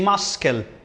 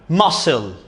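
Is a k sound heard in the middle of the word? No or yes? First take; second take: yes; no. First: A k sound is pronounced in the middle. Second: No k sound is pronounced in the middle. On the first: The speaker calls it wrong. "We don't pronounce the C, we don't say muscle" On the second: The speaker calls it right. "No, muscle"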